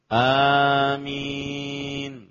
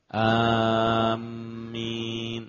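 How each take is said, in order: First: The m sound is short, single. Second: The m sound is held long, doubled. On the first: The speaker calls it right. "Yang benar adalah amin" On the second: The speaker calls it wrong. "Adapun yang keliru adalah ada tasdidnya"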